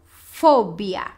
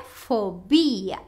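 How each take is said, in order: First: "fobia" stressed on the first syllable, FO-bia; "fobia" the Spanish way, FOH-bya. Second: "fobia" stressed on the middle syllable, fo-BI-a; "fobia" the Portuguese way, fo-BEE-a. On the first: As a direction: hit FO hard in "fobia". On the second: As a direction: lean on BI in "fobia". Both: Shown as a demonstration. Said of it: "a gente carrega a voz em fo".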